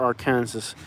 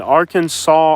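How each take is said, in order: First: "Arkansas" said ar-KAN-sus; spelling pronunciation. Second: "Arkansas" said AR-kan-saw; usual pronunciation. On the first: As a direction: say "Arkansas" like "Kansas" with "Ar" before it. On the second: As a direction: end "Arkansas" in "saw", silent final s. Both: Shown as a demonstration. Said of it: "Y'all gotta clear that up".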